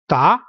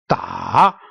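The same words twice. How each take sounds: First: The pitch rises through the syllable. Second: The pitch dips down and then rises. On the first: "going up" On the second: "going down and then upward"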